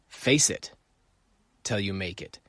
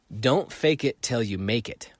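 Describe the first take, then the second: First: "Face" set apart and stressed, then "till you make it" drops softer. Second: "fake" pressed with a rising tune; stress on fake. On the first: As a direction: hit "Face" alone, then let the rest fall away. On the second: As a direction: lean on the word "fake" and let it lift. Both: Shown as a demonstration.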